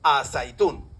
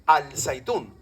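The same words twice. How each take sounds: First: "a zaitún" slowly, l melted into z; assimilated article. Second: "al zaitún" slowly with the l sounded; unassimilated article. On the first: Lecturer showing students the real form, swallowed l. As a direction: lengthen into the z of "a zaitún", no l. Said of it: "se dice a zaitún". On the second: Lecturer showing students the form not said, sounded l. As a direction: separate "al" from "zaitún", l clear. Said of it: "no se dice al zaitún". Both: Shown as a demonstration.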